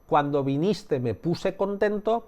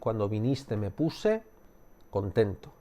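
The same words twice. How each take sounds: First: The sentence is said straight through without pausing. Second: A short pause breaks the sentence partway through. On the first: All the information is given at once. "te estoy dando toda la información de golpe" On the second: A small moment of doubt is created. "puedes cambiar el lugar donde se hace la pregunta"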